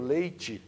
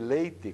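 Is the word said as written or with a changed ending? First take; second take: changed ending; as written. First: The ending is pronounced differently from the spelling. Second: The ending is pronounced exactly as it is spelled. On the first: This is how it would be said without the immigrant influence. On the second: This matches the word's original form.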